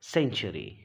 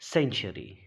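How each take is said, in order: First: The word begins with an s sound. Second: The same.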